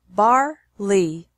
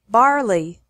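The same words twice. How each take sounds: First: The syllables are separated by a pause. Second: The syllables run together without a pause. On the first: "once with the syllables separated" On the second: "once normally"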